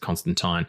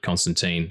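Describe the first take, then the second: First: The name is said in a British way. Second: The name is said in a non-British way. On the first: This is how British people say the name. "British people pronounce it" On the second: This is how most people say the name. "why everyone calls it"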